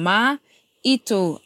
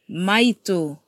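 First: There is a break between ma and ito. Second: It is said smoothly with no break. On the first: It means our truth. "our truth" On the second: It means our mother. "our mother"

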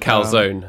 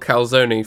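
First: Calzone is said with an American pronunciation. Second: Calzone is said with a British pronunciation.

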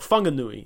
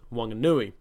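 First: The name starts with an F sound. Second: The name starts with a W sound.

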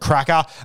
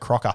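First: The first vowel sounds like 'crack'. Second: The first vowel sounds like 'crock'. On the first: The speaker calls it right. "Absolute cracker" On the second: The speaker calls it wrong. "I wouldn't say crocker"

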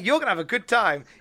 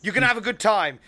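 First: The voice sounds friendly and cheerful. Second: The voice sounds angry and scolding. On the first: The speaker is wishing someone a fun time. "he didn't sound like, "Hey, you're gonna have a good time."" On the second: The speaker is about to tell someone off. "he was listing it off like he was about to tell me off for it"

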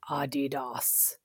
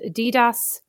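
First: The name is said in a German way. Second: The name is said in a non-German way. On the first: "as German people call it" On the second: "as my children like to call it"

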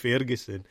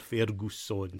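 First: The name is said with a Scottish pronunciation. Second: The name is said with an Italian pronunciation. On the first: "obviously with a Scottish accent" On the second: "the Italian pronunciation of Lewis Ferguson's name"

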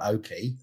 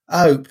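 First: It has two syllables, ending in an ee. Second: It rhymes with hope, one syllable. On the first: The speaker calls it wrong. "It's not Opie" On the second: The speaker calls it right. "Like Hope without an H"

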